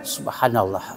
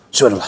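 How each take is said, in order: First: It is said slowly and calmly. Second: It is said fast and hurried.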